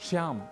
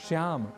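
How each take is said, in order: The two takes are said the same way.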